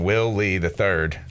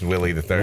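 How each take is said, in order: First: The name is said slowly with separate words. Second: The name is said fast with words run together.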